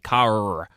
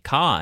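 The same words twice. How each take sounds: First: It is said in an American accent. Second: It is said in an Australian accent.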